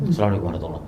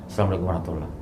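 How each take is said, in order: No difference in how they are said.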